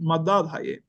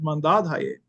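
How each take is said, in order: First: The first syllable has no n sound. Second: The first syllable has an n sound. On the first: This is how the written form reads in another dialect. "If the Chaldeans had to read that in their Chaldean language, they they read Madadhaye" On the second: This is how the community itself says it. "but they pronounce it Mandadhaye, right? So there is that that noon"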